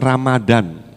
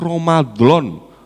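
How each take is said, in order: First: It is said with plain Indonesian sounds. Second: It is said with Arabic sounds. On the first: The speaker calls it wrong. "bukan Ramadan" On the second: The speaker calls it right. "Yang benar itu Ramadan"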